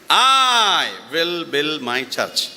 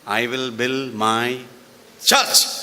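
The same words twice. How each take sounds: First: The stress is on I. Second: The stress is on church.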